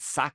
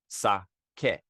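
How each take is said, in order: First: The vowels are not pronounced as in Spanish. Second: The vowels are pronounced as in Spanish. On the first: The speaker calls it wrong. "A lot of people pronounce it sake, ... that's wrong" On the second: The speaker calls it right. "pronounce it like Spanish"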